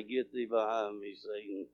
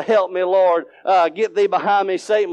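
First: Very low, hushed murmur; whisper under the breath. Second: Understated retold plea at normal volume; voiced prayer, only lightly called out; mild crying out. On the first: Retold or imitated. Man at work secretly rebuking Satan, whispered under his breath. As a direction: drop far down, barely audible. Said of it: "I'll look and whisper right under my breath". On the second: Man at work praying against persecution, mildly crying out. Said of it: "and I can't cry out".

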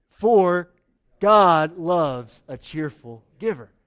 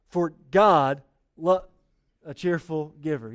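First: Loud, slow, emphatic unison reading; louder read-along. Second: Slow unison reading, trailing off; slow read-along. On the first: Pastor rereads verse with congregation after they were bad, loud and slow. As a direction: lead the room, louder this time. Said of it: "Let's do it again". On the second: Pastor leads congregation in reading verse, slow and drawn out. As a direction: read it slowly aloud with the church. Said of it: "Read this with me out loud". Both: Shown as a demonstration.

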